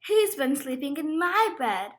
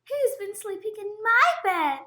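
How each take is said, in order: First: The voice is at a medium, moderate pitch. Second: The voice is high, small and squeaky. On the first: "in her middle-sized voice" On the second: "Squeaked Baby Bear in his tiny voice"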